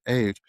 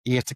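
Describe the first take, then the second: First: EIGHT in a posh English accent; anglify EIGHT, really posh. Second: EIGHT in his natural Irish accent; own Irish accent. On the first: Irishman mimicking how he had to talk in England, posh English accent. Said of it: "like, really posh". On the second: Back home in Ireland, eight in natural Irish accent. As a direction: let EIGHT come out the Irish way. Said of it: "the way that I know eight comes out". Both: Shown as a demonstration.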